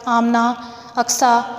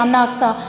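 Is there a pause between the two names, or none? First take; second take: pause; none. First: A short pause separates the two names. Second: The two names run together without a pause. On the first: Each girl knows she is called separately. The speaker calls it right. "हम उनका नाम जो है वो ठहर कर लेंगे" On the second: It is unclear who is being called. The speaker calls it wrong. "इकट्ठा ले रहे हैं"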